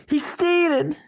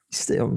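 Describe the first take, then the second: First: High shouted warning. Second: Said in the usual way. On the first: Shown as a demonstration. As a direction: yell it out for the speaker. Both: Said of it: "I'm just gonna shout".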